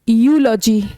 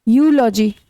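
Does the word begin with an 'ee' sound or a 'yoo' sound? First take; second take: yoo sound; yoo sound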